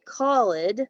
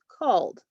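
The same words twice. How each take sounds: First: The ending is an extra syllable, 'ed'. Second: The ending is only a short d sound. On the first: The speaker calls it wrong. "You don't say called" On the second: The speaker calls it right. "it's just called"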